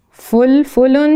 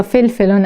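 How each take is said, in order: First: فلفلون said "fulfulon", with u in both first syllables; slow, careful فلفلون as "fulfulon"; u-vowel variant. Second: فلفلون said "felfelon", with e in both first syllables; e-vowel variant. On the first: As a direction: round the vowels of فلفلون to "ful-ful-on". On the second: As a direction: front the vowels of فلفلون to "fel-fel-on". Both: Shown as a demonstration. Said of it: "تلفظش بر دو شکل درست است".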